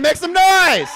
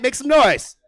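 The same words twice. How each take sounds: First: Much higher, louder yelled call; louder hype call. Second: Loud, higher call to the crowd; loud hype call. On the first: Host demanding more noise, much louder and higher. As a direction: yell it even bigger for the crowd. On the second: Host calling for noise, the first ask. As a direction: ask for noise, big and bright. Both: Real, not acted. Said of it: "make it a little louder".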